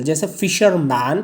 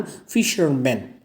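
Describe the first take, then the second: First: फिशरमैन ending in a clear "man", rising; singular फिशरमैन, ending said as "man"; singular fisherman. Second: फिशरमैन slow, with a nasal "men" ending, falling; plural fishermen. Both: Shown as a demonstration. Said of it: "singular से क्या हो जाएगा".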